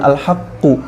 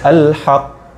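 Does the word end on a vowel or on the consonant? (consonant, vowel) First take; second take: vowel; consonant. First: The word ends with a final u vowel. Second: The word stops on the final consonant. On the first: The speaker calls it wrong. "maka dibacanya bukan al-haqqu" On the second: The speaker calls it right. "tapi al-haq"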